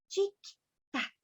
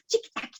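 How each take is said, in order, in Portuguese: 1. A palavra é dita bem devagar. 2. A palavra é dita bem rápido. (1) "bem devagarzinho" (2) "bem rapidinho"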